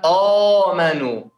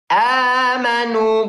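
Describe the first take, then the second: First: The first vowel is thick and rounded. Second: The first vowel is thin and open. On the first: The speaker calls it wrong. "bukan oh manu" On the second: The speaker calls it right. "Tapi saya mau a"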